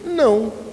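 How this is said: It is said gently and warmly.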